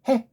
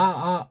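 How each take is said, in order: First: It begins with a breathy h sound. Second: It is a bare vowel with no h. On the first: The speaker calls it right. "자음이 중요한데" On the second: The speaker calls it wrong. "왜 이게 아, 아, 아라고 합니까?"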